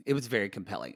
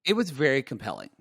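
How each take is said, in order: First: Softer, lower repeat; quiet. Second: Said in the usual way. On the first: Shown as a demonstration. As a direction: let it drop away quietly. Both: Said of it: "I agree".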